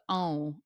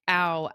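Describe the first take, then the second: First: The vowel is pushed through the nose. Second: The vowel is made through the mouth only. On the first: The speaker calls it right. "eventually I was able to" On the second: The speaker calls it wrong. "trying to figure out how to get it into the nose"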